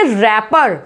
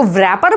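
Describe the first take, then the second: First: रैपर starting straight on r; correct pronunciation. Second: व्रैपर with the w sounded; wrong pronunciation. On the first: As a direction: drop the w in रैपर. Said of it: "इसको बोलेंगे रैपर". (रैपर में "W" silent) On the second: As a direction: start व्रैपर on "vr". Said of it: "इसको व्रैपर बोलेंगे?". (व्रैपर में "व" बोलकर) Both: Shown as a demonstration.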